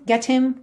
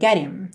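First: The h sound in him is clearly pronounced. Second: The h is dropped and the t links on. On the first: "não é obrigatório, tá? Você pode falar get him" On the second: "as pessoas acabam tirando mesmo"

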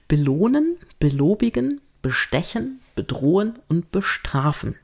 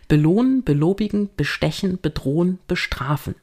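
First: The list is said more slowly. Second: The list is said at a faster pace.

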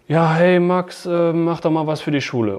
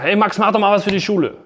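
First: It sounds bored and low in energy. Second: It sounds angry and irritated.

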